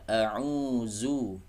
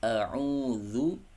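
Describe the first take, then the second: First: The middle consonant is a buzzing z sound. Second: The middle consonant is a soft voiced th sound. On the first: The speaker calls it wrong. "jangan dibaca a'uzu" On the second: The speaker calls it right. "A'udzu, bukan a'uzu"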